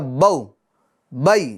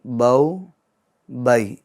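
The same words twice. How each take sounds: First: The syllables are cut off with a jerk. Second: The syllables are said softly without a jerk. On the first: The speaker calls it wrong. "नहीं, गलत" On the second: The speaker calls it right. "नरमी के साथ"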